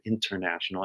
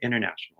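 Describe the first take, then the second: First: The T sound in the middle is pronounced. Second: The T sound in the middle is dropped. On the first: "international has a T in it, but I don't say the word international" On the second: "I say international"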